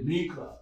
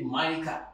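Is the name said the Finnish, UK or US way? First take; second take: Finnish; US. First: The name is said the Finnish way. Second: The name is said the US way.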